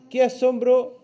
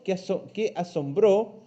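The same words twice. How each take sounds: First: "asombro" with the stress on "SOM", said higher and louder; "asombro" stressed on the middle syllable, the mistaken reading; wrong stress. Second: "asombró" with the stress on the last "ó"; stress on final O. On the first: Teacher showing pupils the wrong stress, "asombro" stressed on the middle syllable. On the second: Teacher correcting pupils, "asombró" stressed on the final ó. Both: Shown as a demonstration. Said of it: "tiene acento en la O".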